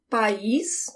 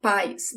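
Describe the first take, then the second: First: "país" stressed on the final "ís"; "país" said pa-EES, in two syllables; stress on last syllable. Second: "pais" stressed on "pa", falling away after it; "pais" said PA-is, front-stressed; stress on first syllable. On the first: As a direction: push the weight to the end of "país". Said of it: "with the emphasis at the end". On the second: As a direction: hit the opening "pa" of "pais". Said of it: "The emphasis is on the pa". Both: Shown as a demonstration.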